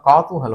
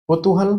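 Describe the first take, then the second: First: The first vowel is the diphthong 'au'. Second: The first vowel is a short 'u'. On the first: The speaker calls it right. "कौतूहल होता है" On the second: The speaker calls it wrong. "कुतूहल नहीं होता"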